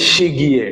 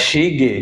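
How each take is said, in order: First: The second syllable has a 'y' glide: gye. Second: The second syllable has no glide: ge. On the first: "এটা কি ইয়ে" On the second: "এও বলতে পারি"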